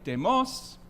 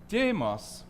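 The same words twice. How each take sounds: First: The accent falls on the last syllable. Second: The accent falls on the first syllable. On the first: It means fat. "with the accent on the last word" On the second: It means the people. "if you pronounce that demos, you mean the people"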